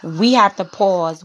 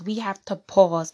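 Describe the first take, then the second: First: "We have to pause" slow and louder, leaning on have; slow, louder mock appeal to the brothers; emphatic pause. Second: Said in the usual way. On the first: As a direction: press the words like a solemn call. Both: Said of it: "and say".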